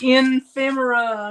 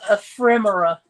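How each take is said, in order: First: The word is said with an N sound. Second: The word is said without an N sound. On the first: The speaker calls it wrong. "some people say ephemera" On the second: The speaker calls it right. "there is no N in the word"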